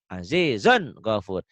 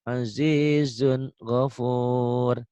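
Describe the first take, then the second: First: The n sound is pressed and jerked forcefully. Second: The n sound is said clearly without force. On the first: It is a practice reading to tell izhar from idgham. "Itu latihannya" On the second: It is the normal reading once the reader is skilled. "Tapi kalau sudah pinter, nggak usah begitu ya. Cukup"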